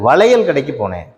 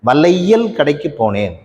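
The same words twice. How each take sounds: First: The 'lai' is said like a short 'la'. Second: The 'lai' is said with a full 'ai' vowel. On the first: The speaker calls it right. "ல என்பதாக உச்சரிக்கிறோம்" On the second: The speaker calls it wrong. "சொல்றது இல்லை"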